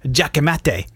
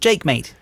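First: It is said with a Spanish-style pronunciation. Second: It is said with an English-style pronunciation.

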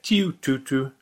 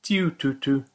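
No difference in how they are said.

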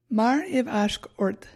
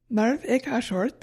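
First: It sounds like mar-iv-ashk-ort, with ashk before ort. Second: It sounds like marv-ik-ashort, without a k before ort. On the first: The speaker calls it right. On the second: The speaker calls it wrong.

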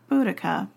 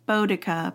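First: The first syllable sounds like 'boo'. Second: The first syllable rhymes with 'go'.

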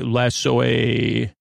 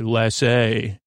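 First: The word is drawn out slowly. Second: The word is said quickly. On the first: "we don't say it that slow" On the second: "We just say Lassay"

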